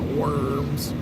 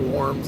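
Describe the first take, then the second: First: The vowel sounds like the one in word. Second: The vowel sounds like the one in warm. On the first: "not worms" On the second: "I say worms like that"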